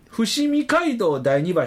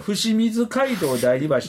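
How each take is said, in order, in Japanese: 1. 最初の部分は「Fushimi」と言います。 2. 最初の部分は「Fushimizu」と言います。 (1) "伏見街道第二橋と呼んではダメです" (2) "これ伏見図街道第二橋でこれ一応根拠はあって"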